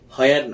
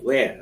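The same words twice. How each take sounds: First: The word starts with an h sound. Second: The word starts with a plain w sound. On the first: The speaker calls it wrong. "না" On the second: The speaker calls it right. "বলো where"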